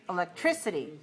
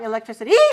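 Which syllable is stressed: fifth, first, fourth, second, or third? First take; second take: third; fifth. First: The stress is on the third syllable. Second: The stress is on the fifth syllable. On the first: The speaker calls it right. "If it's five three" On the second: The speaker calls it wrong. "If five five"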